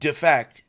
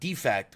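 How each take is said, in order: First: The stress is on the second syllable. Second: The stress is on the first syllable. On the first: It means to desert to the other side. The speaker calls it right. "as in defect" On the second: It means a flaw that makes something broken. The speaker calls it wrong. "not defect, which is what I read it as"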